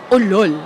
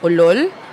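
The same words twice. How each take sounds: First: It sounds like a mocking insult. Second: It sounds like a surprised question.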